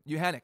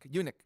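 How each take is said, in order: First: The H sound is clearly pronounced. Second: The H sound is skipped over. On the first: The speaker calls it right. "but Uhanic" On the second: The speaker calls it wrong. "where you just kind of like breeze through the H"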